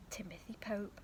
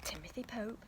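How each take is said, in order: Both takes have the same delivery.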